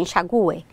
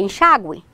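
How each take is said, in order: First: Enxague stressed on the U, en-sha-GU-e. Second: Enxágue stressed on the second syllable, en-SHÁ-gue. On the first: Teacher contrasting regional forms, enxague stressed on U. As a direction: hit the GU in enxague as a separate syllable. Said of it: "algumas regiões do Brasil falam". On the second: Teacher citing regional speech, enxágue stressed on XÁ. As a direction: hit the XÁ in enxágue, gliding through gue. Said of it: "não falam enxague". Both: Shown as a demonstration.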